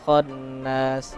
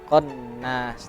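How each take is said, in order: First: It starts with a raspy throat sound. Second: It starts with a plain k sound. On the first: The speaker calls it right. "kho dan ko jauh berbeda" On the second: The speaker calls it wrong. "khonnya tadi terbaca konnas"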